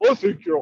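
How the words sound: It is said in a dopey, drawling Goofy voice. "using the voice of Goofy"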